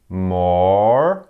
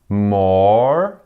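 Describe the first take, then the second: The two takes are said the same way.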